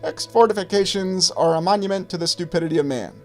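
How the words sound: The voice is high-pitched and thin. This is how the general really sounded. "I'll say it in his high-pitched voice"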